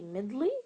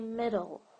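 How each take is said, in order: First: The word ends with an added ee vowel. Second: The word ends with a plain l sound. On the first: The speaker calls it wrong. "Do I say middly? No" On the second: The speaker calls it right. "I say middle"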